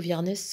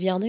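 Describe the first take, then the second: First: The name ends with a sounded final s. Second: The name ends without a final s sound.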